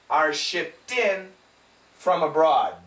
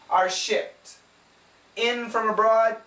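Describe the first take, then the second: First: Shipped and in are linked together. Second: Shipped and in are said separately. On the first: The speaker calls it right. "you have to say this together" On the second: The speaker calls it wrong.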